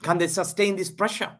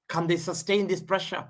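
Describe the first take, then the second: No difference in how they are said.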